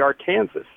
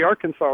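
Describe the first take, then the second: First: It is said with the English-style pronunciation. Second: It is said with the French-style pronunciation. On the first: This is how people in Kansas say it. "everyone calls it the Arkansas" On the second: This is how people in the state of Arkansas say it. "people in the state of Arkansas ... call it the Arkansas River"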